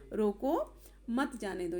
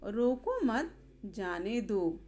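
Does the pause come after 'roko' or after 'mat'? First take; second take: after roko; after mat. First: The pause comes after the first word. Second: The pause comes after the second word. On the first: Stop him, do not let him go. "रोको के बाद लगा हुआ है" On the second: Do not stop him, let him go. "उस व्यक्ति को रोकना नहीं है"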